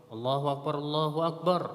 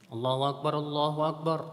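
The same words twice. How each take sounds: Both takes have the same delivery.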